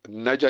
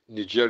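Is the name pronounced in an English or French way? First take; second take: English; French. First: The name is pronounced the English way. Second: The name is pronounced the French way. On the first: "Niger is English" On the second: "Niger is French"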